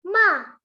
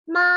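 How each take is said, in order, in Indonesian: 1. Diucapkan dengan nada keempat. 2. Diucapkan dengan nada pertama. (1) "nada keempat" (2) "Untuk nada pertama"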